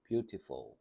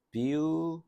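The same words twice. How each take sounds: First: Said in the usual way. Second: Beautiful broken into beau, ti, ful; syllable by syllable. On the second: Shown as a demonstration. Teacher counting three syllables for students, spaced out. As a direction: say beautiful slowly in three separate beats, starting high and loud. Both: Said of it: "요거 삼음절".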